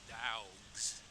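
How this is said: It is said in a Southern American accent. "And down here in the South, it's also dogs"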